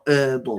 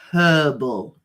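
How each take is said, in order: First: The h at the start is silent. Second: The h at the start is pronounced. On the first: The speaker calls it wrong. "not herbal" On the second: The speaker calls it right. "it's herbal, not herbal"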